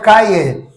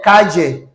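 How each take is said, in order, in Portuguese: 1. O duplo l é um som de y. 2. O duplo l é um som parecido com j. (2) "E no Argentina, Chile, Uruguai"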